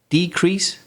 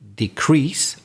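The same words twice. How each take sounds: First: The stress is on the first syllable. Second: The stress is on the second syllable. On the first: It is used as a noun. "if they're nouns, we again, just like conduct, stress the first syllable" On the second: It is used as a verb. "the verb shifts, changes to the second syllable, the stress"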